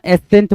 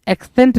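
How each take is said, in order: First: No k sound comes before the s. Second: A k sound comes before the s. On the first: The speaker calls it right. "एसेंट बोलना है" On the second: The speaker calls it wrong. "एक्सेंट नहीं बोलना"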